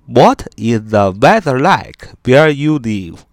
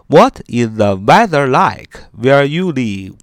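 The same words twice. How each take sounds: The two takes are said the same way.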